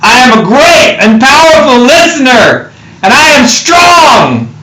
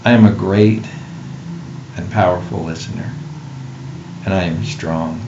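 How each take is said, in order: First: It is said in an epic voice. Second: It is said in a reverent voice.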